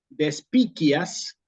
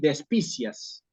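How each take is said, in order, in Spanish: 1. Se dice al modo del latín clásico. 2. Se lee como la leería el español. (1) "que es como hubiera dicho Cicerón" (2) "esta tercera forma no existe. Eso es la lectura en español"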